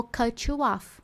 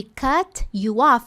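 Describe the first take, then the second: First: "cut you off" run together as "cutchu off"; fuse "cut you" into tch; linked. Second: "cut you off" slow, T released before you; slow separated "cut you off"; unlinked. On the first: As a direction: native "cutchu off". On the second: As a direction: pull "cut you" apart slowly. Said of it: "ao invés de". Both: Shown as a demonstration.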